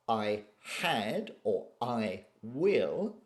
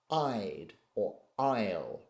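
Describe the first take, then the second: First: The verbs are said as full separate words. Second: The verbs are contracted onto the pronoun. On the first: The speaker calls it wrong. "we don't say things like" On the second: The speaker calls it right. "We tend to say"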